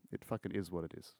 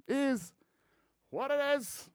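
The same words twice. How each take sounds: First: Said in the usual way. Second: Mock squeaky voice repeating the phrase; squeaky high echo. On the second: Shown as a demonstration.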